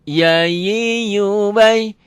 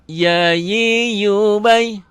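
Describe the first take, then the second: No difference in how they are said.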